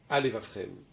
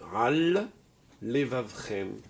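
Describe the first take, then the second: First: The two words are run together as one. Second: Both words are said separately, each sound kept. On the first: The speaker calls it wrong. "j'ai pas dit Al levavchem" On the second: The speaker calls it right. "J'ai bien dit le mot Al"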